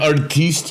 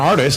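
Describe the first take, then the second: First: The word is said with a fancy, foreign-sounding inflection. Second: The word is said plainly, with ordinary pronunciation.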